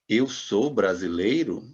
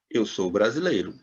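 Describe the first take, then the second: First: It is said with a question tune. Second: It is said with a statement tune. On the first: The speaker asks whether it is true. "E se eu quiser perguntar, eu tenho que dizer" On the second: The speaker states a fact. "já em português eu digo"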